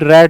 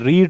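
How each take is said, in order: First: The vowel is short, like 'red'. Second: The vowel is long, like 'reed'. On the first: It is the past form. "सेम spelling लेकिन उच्चारण अलग अलग रहता है" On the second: It is the present form. "सेम spelling लेकिन उच्चारण अलग अलग रहता है"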